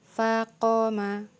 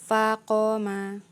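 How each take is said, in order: No difference in how they are said.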